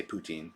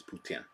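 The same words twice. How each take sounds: First: Said in the usual way. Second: Poutine the French way, ending in a nasal "tsin"; correct French pronunciation. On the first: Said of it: "I say poutine". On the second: Shown as a demonstration. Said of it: "the correct way to say it".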